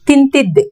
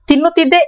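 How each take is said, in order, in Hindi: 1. यह शब्द छोटा होकर tintidde बोला गया है। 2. यह शब्द tinnuttidde पूरा बोला गया है। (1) "इसको हम स्पोकन में बोलते हैं" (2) "एक किताब क्वेश्चन हो गया"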